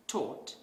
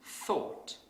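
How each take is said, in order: First: Taught for thought, T instead of TH; wrong th sound. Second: Thought with a clear TH; thought, proper TH sound; correct th sound. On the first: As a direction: say taught with a plain T. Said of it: "might pronounce this word as". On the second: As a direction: start thought with the tongue between the teeth. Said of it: "instead of". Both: Shown as a demonstration.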